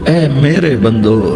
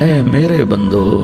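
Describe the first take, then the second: The two takes are said the same way.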